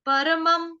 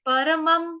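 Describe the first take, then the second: The two takes are said the same way.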